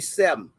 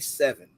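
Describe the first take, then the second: First: The word is said in a clipped dialect form. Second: The word is said in its full standard form. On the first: The speaker calls it right. "Say seven" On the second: The speaker calls it wrong. "Don't say seven"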